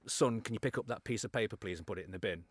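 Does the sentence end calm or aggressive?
calm. The sentence stays calm right to the end.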